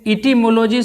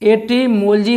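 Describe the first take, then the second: First: The first vowel sounds like 'ee'. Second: The first vowel sounds like 'eh'. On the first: The speaker calls it wrong. "इटिमोलॉजी sir दोस्तों नहीं होता है" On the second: The speaker calls it right. "एटिमोलॉजी होता है"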